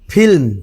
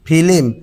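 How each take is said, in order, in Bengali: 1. যুক্তব্যঞ্জনটি মাঝে কোনো স্বর ছাড়া বলা হয়। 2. অতিরিক্ত একটা স্বর যুক্তব্যঞ্জনটিকে ভাগ করে। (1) "আবার দেখেন ফিল্ম" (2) "ফিল্ম হয়ে যাবে কি ফিলিম"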